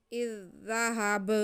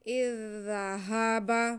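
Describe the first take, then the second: First: Final ब made silent-vowelled, the word ending in a bare b; ब cut off with no vowel after it; stop on the last letter. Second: Said in the usual way. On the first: Shown as a demonstration. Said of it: "वक्फ करेंगे तो बा को साकिन करेंगे". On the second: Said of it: "तो अब हम वक्फ करेंगे".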